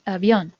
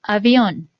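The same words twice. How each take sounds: First: Said in the usual way. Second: Avión said slowly and clearly, a bit louder, falling at the end; examiner's careful delivery of Avión; clear test word. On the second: Shown as a demonstration. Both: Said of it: "necesito que escuches esta palabra".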